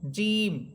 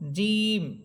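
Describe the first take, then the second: No difference in how they are said.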